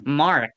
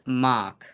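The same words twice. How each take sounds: First: The R sound is strongly pronounced. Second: The final R sound is dropped. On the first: The speaker calls it wrong. "Not this Mark. Why are you guys stressing on the R so much?" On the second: The speaker calls it right. "It's Mark. Okay?"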